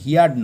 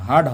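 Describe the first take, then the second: First: The vowel sounds like the word 'ear'. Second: The vowel sounds like the word 'her'. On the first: The speaker calls it wrong. "এটার উচ্চারণ হিয়ার্ড না" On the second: The speaker calls it right. "হার্ড হবে"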